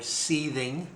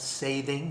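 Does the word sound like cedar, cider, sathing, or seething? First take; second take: seething; sathing. First: The word is said like 'seething'. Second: The word is said like 'sathing'. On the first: "You may mispronounce it another way, or seething" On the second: "I call it sathing"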